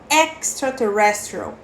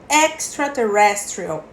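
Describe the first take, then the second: The two takes are said the same way.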